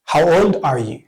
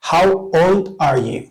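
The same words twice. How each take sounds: First: Said in the usual way. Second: Unhurried and clear; slow model. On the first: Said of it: "normal-speed take". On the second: Shown as a demonstration. Teacher modelling a question for students, slowly. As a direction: say it slowly for learners to repeat. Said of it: "teacher models the question".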